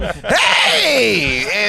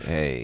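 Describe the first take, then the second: First: It is loud, big and energetic. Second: It is low, flat and monotone.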